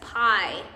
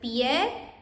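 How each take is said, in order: First: The word is said with an English-sounding accent. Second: The word is said with a Spanish-sounding accent. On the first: The speaker calls it wrong. "still pronounce feet in Spanish as pie instead" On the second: The speaker calls it right. "instead of pie"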